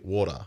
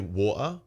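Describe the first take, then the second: First: It is said with an American accent. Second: It is said with a British accent.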